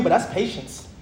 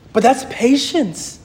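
First: Said in the usual way. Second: "patience" drawn out slowly with weight; slow down and land firmly on "patience"; slow, emphatic "patience"; emphatic repeat. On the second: Real, not acted.

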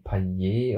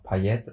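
First: Second Payet the French way, "Pa-yé"; silent final T. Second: First Payet with a spoken T, "Pa-yett"; final T sounded. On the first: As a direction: drop the T and end Payet on é. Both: Shown as a demonstration. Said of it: "oder wie man ihn ausgesprochen hat".

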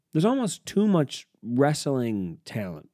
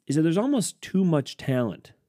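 First: Slow down, lean on almost; slow emphatic restatement. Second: Said in the usual way. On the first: Real, not acted. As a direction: spell it out, stressing almost. Restating his point for emphasis.

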